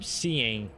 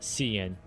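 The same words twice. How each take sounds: First: The ending has the full 'ing' sound. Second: The ending is a short 'in' sound. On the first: This is the proper, polite way to say it. "ing instead of in" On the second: This is the casual way to say it.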